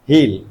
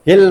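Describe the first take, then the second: First: The vowel is long. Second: The vowel is short. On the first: The speaker calls it right. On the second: The speaker calls it wrong. "हिल नहीं"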